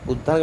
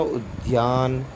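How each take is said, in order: First: उद्यान said as "uddaan", without the y; उद्यान with a plain double d; wrong pronunciation. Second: उद्यान said as "ud-yaan", with a y glide; उद्यान drawn out with a clear "dya"; correct pronunciation. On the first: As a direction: drop the y glide in उद्यान. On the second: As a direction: sound the y after d in उद्यान. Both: Shown as a demonstration. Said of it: "आपको शुद्ध पढ़ूंगा".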